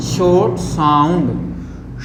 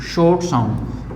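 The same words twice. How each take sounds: First: Slow demo. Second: Said in the usual way. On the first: Shown as a demonstration. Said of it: "सबसे पहले होता है short sound". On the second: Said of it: "होता है short sound".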